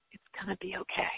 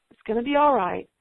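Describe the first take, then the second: First: Soft whisper, it's gonna be okay; whispered reassurance. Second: Louder, firm reassurance on "all"; reassuring. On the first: Speaker to a worn-out homeschool mom, soft whisper. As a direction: hush it gently like comforting a friend. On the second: Speaker to a worn-out homeschool mom, firm reassurance. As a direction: lean on "all" to promise it. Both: Acted.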